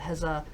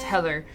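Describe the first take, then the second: First: The middle consonant is a 'z' sound. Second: The middle consonant is a 'th' sound. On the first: This is how the name is adapted into Japanese. The speaker calls it wrong. "it usually gets tra translated with the Heza" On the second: This is the speaker's own way of saying the name. The speaker calls it right. "in my name, it's the T H sound. So it's Heather"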